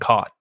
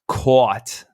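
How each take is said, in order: First: The vowel is plain, sounding like cot. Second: The ah vowel is drawn out and emphasized. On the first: This is how West Coast speakers say it. "We don't we don't emphasize the ah sound" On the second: This is how speakers from the far northeast say it. "they actually emphasize and enunciate the ah sound"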